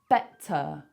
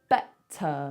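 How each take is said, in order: Both takes have the same delivery.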